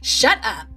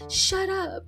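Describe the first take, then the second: First: It is said firmly and forcefully. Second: It is said weakly and without force. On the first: The speaker means it and has power over the thought. The speaker calls it right. "I had to tell it with authority" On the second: The speaker does not really believe in their power. The speaker calls it wrong. "You just can't be like"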